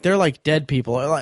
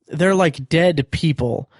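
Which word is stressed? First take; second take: like; dead. First: The word dead is not the stressed word. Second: The word dead carries the main stress. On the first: The people only seem lifeless. The speaker calls it right. "instead of saying like" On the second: The people may literally be dead. The speaker calls it wrong. "the way that he puts the emphasis on the word dead"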